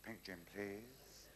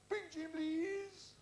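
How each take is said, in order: First: Slow, softer, drawn-out polite order; low-key, lingering character voice; joke customer's order. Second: Drawn-out parade-ground call; mock military drill voice; guardsman's order. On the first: Acted. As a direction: stretch out a gentle bar order. Woofter orders again next night. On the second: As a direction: bellow it slowly like a guardsman on parade.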